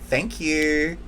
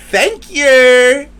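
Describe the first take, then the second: First: Said in the usual way. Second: A much higher, louder, sarcastic Thank you; passive aggressive. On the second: Shown as a demonstration. Vlogger thanking those who hurt her, passive-aggressive and sarcastic. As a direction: sing out a fake-sweet Thank you. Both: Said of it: "passive aggressively".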